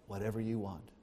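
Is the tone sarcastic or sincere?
sincere. It is said in a sincere, earnest tone. The speaker truly means it. The speaker calls it right. "with a sincere heart"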